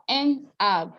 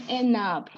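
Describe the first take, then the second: First: "enab" as two separate words, no N carried over; without liaison. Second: "enab" linked as en-nab, N carried onto the vowel; with liaison. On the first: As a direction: break "enab" into en, then ab. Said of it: "Instead of saying enab". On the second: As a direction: run "enab" together with an N before ab. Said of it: "we're now saying enab". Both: Shown as a demonstration.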